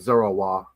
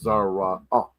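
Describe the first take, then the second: First: The final vowel is linked smoothly without a break. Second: A glottal stop separates the final vowel. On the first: The speaker calls it wrong. "you can be like Zarawa" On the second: The speaker calls it right. "I would throw a glottal stop on that"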